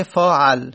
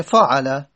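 First: فاعل said "faa'al", stopping dead on the l; pausal ending. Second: فاعله said "faa'ala", ending on a vowel; open final a. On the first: Teacher showing the pausal form, final vowel dropped. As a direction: drop the last vowel of فاعل, keep a before l. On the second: Teacher giving the past form, final vowel sounded. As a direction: finish فاعله on a short open a. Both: Shown as a demonstration.

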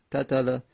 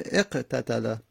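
First: قتله begun on a bare q, then "tatala"; قتله split after a vowelless initial qaf. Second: اقتتله opened with "eq", then "tatala"; اقتتله with an added initial e; helping vowel before qaf. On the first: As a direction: force out an isolated q with no vowel before the rest of قتله. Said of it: "ساکن نمیشه تلفظ". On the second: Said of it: "الف آوردیم که بتونیم به ساکن تلفظ بزنیم". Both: Shown as a demonstration.

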